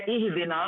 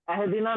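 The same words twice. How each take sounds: First: इहदिना starting with a clear i sound; इहदिना begun with i, not a; correct opening vowel. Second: अहदिना starting with a short open a sound; अहदिना begun with a instead of i; wrong opening vowel. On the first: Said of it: "ये है इहदिना". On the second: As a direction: say अहदिना with a at the start, the mistake to avoid. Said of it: "अहदिना नहीं पढ़ना है". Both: Shown as a demonstration.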